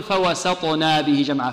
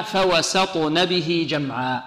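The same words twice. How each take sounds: First: فوسطنا with a long a after the nun; slow demo of the error فوسطنا; الخطأ: فوسطنا بمد النون; wrong reading. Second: فوسطن with a short unlengthened nun; slow careful فوسطن, no vowel after the n; النطق الصحيح: فوسطن; correct reading. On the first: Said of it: "لا نقول". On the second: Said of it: "إذن هنا". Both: Shown as a demonstration.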